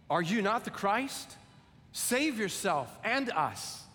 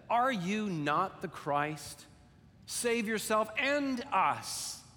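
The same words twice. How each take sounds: First: Mild railing criminal. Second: The criminal's mocking demand, drawn out and rising high; railing criminal, slow. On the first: Acted. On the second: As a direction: lean on it slowly, a taunt from the cross. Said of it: "one of the criminals said".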